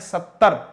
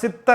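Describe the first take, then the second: First: The word is said as 'sattar'. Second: The word is said as 'sitar'. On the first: The speaker calls it right. "सही उच्चारण है सत्तर" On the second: The speaker calls it wrong. "कई बार सितर ऐसा बोल लेते हैं"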